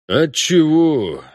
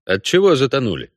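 First: Slow, glum echo of the question; glum mutter. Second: Said in the usual way. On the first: A narrator's reading. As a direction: drag it out gloomily. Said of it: "буркнул боцман уныло". (уныло, медленно) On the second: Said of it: "вопрос Геральта".

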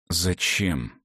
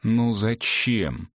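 First: "Зачем" low with a falling end; asking aloud. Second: "Ну зачем" drawn out slowly, falling at the end; insistent repeated question. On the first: Клавдий alone questioning Ивга's risk, subdued falling "Зачем". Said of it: "спросил он вслух". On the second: Клавдий alone questioning Ивга's risk, slow insistent "Ну зачем". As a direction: lean on "Ну", stretch out "зачем". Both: A narrator's reading.

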